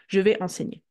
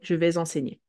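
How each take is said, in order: First: Vais and enseigner are said without a linking sound. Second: A linking z sound joins vais to enseigner. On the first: "you can also decide not to do it" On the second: "we will do the liaison with whatever comes after"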